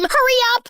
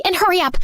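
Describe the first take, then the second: First: High, louder urgent cry of hurry up; urgent shout. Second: Said in the usual way. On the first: Acted. Caller yells at 911 dispatcher to hurry, high urgent shout. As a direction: yell it at the dispatcher, no time to lose.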